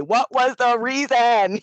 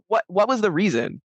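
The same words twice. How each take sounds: First: A light [name] imitation, slow and drawn out; [name] quote. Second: Said in the usual way. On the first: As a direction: lightly mimic [name], stretching the words. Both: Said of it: "as [name] would say".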